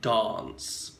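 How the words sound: The A vowel is very long and drawn out. It sounds old-fashioned, comical or false today. "much longer"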